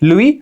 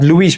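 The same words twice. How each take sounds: First: The name is said with a French pronunciation. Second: The name is said with an English-style pronunciation. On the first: The speaker calls it right. "but it's Louis Pasteur okay Louis no he's a French scientist" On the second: The speaker calls it wrong. "we actually mispronounce Louis Louis no it's not Louis"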